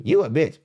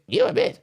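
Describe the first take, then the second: First: Said in the usual way. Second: Squeaky very high parroting; mocking echo. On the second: Shown as a demonstration. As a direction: repeat it back in a silly falsetto. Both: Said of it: "Mock you".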